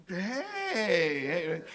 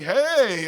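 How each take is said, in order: First: Long, wavering stretched-out hello; uneasy greeting. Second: Loud, higher mock hello; hearty greeting. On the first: Retold or imitated. His wary reply to unexpected Dan. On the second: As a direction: call out a big friendly hello. Acts out Dan's greeting.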